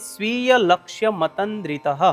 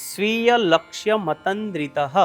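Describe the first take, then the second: No difference in how they are said.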